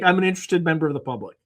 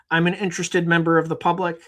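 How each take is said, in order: First: Quick, rattled-off stock line; rapid flat reply. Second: Mock stiff reply. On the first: Retold or imitated. Woman nervously blurting her stock answer to Mike. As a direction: rush it out like a memorized answer. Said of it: "She's just like". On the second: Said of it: "she didn't say it that way".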